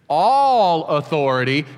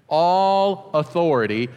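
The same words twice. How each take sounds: First: It is said loudly, with strong conviction. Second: It is said plainly, with low energy. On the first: "say it with me like you're woke up now and you have some conviction" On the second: "say that with me"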